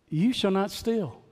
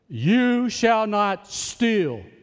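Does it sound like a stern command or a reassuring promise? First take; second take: reassuring promise; stern command. First: It sounds like a reassuring promise. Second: It sounds like a stern command.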